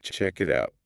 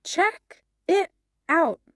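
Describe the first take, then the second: First: "Check it out" run together as one word; smooth linking. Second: Three separate words, CHECK, IT, OUT, with gaps; over-separate each word, high and unnatural; slow and choppy. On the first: Teacher showing how native speakers glue words, smooth linking. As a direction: glide through "Check it out" with no gaps between words. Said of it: "it all becomes one long, smooth word". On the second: Co-host showing learners the unlinked phrase, slow and choppy. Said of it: "It sounds very slow and choppy". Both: Shown as a demonstration.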